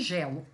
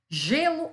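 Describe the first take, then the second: First: "gelo" with an open é, as in "bet". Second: "Gelo" with a closed ê, as in "they". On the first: Teacher contrasting two homographs for students, open E in "gelo". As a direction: say "gelo" with the first vowel wide open. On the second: Teacher contrasting two homographs for students, closed E in "Gelo". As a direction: say "Gelo" with the first vowel closed. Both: Shown as a demonstration. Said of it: "mas eu entono diferente".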